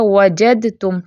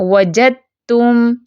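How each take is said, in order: First: Said in the usual way. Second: Slow وَجَدْتُمْ with د silent, only ت heard; tajweed recitation. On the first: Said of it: "تو لکھا کیسے جاتا ہے". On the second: Shown as a demonstration. Teacher shows students how it is read, slow recitation. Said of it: "ہم کیسے پڑھتے ہیں".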